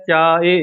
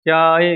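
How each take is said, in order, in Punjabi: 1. ਸ਼ਬਦ ਦਾ ਅੰਤ ਜਲਦੀ ਨਾਲ ਛੋਟੀ ਝਟਕੇ ਵਾਲੀ 'i' ਨਾਲ ਹੁੰਦਾ ਹੈ। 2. ਸ਼ਬਦ ਦਾ ਅੰਤ ਜਲਦੀ ਨਾਲ ਛੋਟੀ ਝਟਕੇ ਵਾਲੀ 'i' ਨਾਲ ਹੁੰਦਾ ਹੈ।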